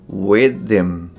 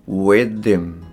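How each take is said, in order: No difference in how they are said.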